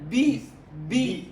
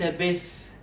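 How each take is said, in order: First: The first vowel sounds like a clear 'i'. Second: The first vowel sounds like 'a'. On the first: The speaker calls it right. "وإنما بي بي كسرة كسرة" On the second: The speaker calls it wrong. "ليس بس"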